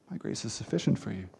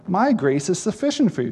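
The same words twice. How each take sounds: First: Quoting God to Paul much softer and lower; hushed quote. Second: "My" lifted and leaned on, the verse said in full voice; stress on MY. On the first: Preacher quoting God's words to Paul, softly and low. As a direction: let the verse drop to a low, soft hush, MY barely lifted. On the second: Preacher repeating the verse to the congregation, stressing MY. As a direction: press the word "My" as the weight of the verse. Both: Shown as a demonstration. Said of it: "That's a huge statement".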